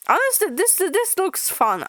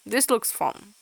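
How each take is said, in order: First: Delighted. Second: Said in the usual way. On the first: Real, not acted. Excited reaction to comic.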